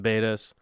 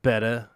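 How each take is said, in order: First: "betas" said BAY-tuhs, with a long A as in bay; wrong pronunciation. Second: "Betta" said BET-uh, with a short E as in bet; correct pronunciation. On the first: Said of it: "I love saying it wrong". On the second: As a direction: say "Betta" as BET-uh, rhyming with letter. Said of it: "it's betta". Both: Shown as a demonstration.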